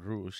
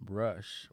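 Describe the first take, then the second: First: The name is pronounced with Spanish sounds. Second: The name is pronounced with English sounds.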